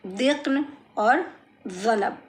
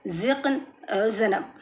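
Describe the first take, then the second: First: ज़िक्न and ज़नब begun with "th" as in "this"; tongue at the teeth: dhiqn, dhanab for ज़िक्न, ज़नब; dental dh variant. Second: ज़िक्न, ज़नब begun with z as in "zoo"; buzzing z variant. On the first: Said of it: "ऐसे भी पढ़िए". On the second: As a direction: buzz clean z sounds in ज़िक्न and ज़नब. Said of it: "दोनों आवाज़ें correct हैं". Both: Shown as a demonstration.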